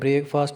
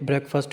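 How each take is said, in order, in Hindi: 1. पहला अक्षर 'brake' शब्द जैसा सुनाई देता है। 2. पहला अक्षर 'breck' जैसा सुनाई देता है, छोटा स्वर। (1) "इसको ब्रेक नहीं बोलना, ... ब्रेकफास्ट नहीं होता" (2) "ये ब्रेकफास्ट होता है"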